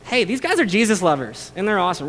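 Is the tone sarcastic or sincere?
sarcastic. It is said in a mocking, sarcastic tone.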